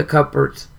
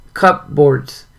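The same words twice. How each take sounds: First: Said in the usual way. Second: "Cupboards" said as two full words, cup-boards; spelled-out pronunciation. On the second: Real, not acted. Reader repeating a word from the book, "Cupboards" pronounced cup-boards. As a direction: sound out both halves of "Cupboards".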